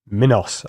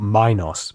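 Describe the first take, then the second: First: The first syllable sounds like 'min' in mini. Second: The first syllable does not sound like 'min'. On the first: The speaker calls it right. "You say it like min, like mini or minimum" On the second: The speaker calls it wrong. "and not minos"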